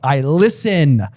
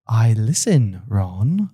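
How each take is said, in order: First: It sounds harsh and sharp. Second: It sounds flattered and explanatory.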